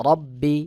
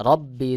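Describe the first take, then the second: No difference in how they are said.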